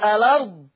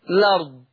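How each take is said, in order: First: It begins with a vowel, pronounced al-ard. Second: It begins directly with l, pronounced lard. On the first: "إثبات همزة الوصف" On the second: "حذف همزة الوصف والبدء بالحرف المحرك"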